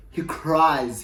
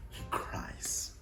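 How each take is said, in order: First: Said in the usual way. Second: Breathy whisper, no voice at all; hushed whisper of the news. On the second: Shown as a demonstration. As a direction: breathe it out as a secret.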